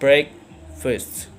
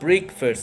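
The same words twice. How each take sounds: First: The first vowel is a short E sound. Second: The first vowel is a long E sound. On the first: The speaker calls it right. "it sounds short E sound" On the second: The speaker calls it wrong. "It's not breakfast"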